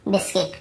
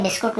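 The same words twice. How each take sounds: First: "बिस्किट" with an i, bis-kit; corrected pronunciation. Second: "बिस्कुट" with a u, bis-kut; Hindi-style pronunciation. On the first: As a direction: end "बिस्किट" softly in kit, not kut. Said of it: "Hindi में हम लोग बड़े बिस्कुट बोल देते हैं". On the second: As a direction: end "बिस्कुट" in kut instead of kit. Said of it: "बिस्कुट नहीं होता". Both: Shown as a demonstration.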